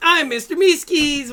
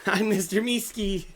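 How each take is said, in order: First: High, loud, squeaky cartoon shout; chirpy eager creature yell; Meeseeks voice. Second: Higher squeaky cartoon voice; eager little creature; Meeseeks voice.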